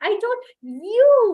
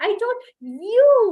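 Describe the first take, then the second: First: The stress falls on the word you. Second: The same.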